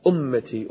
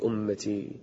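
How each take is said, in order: First: Said in the usual way. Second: Fading plea. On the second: Acted. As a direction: drop to a soft, pleading fall. Prophet's prayer voiced in prostration. (أمتي بصوت خافت متوسل)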